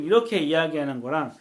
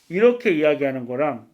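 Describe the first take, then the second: First: The voice is clear, with full high frequencies. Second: The voice is muffled, with high frequencies lost. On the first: "이렇게 이야기했을 때는 제 고음이 바로 들어가고" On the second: "이렇게 입을 막았을 때"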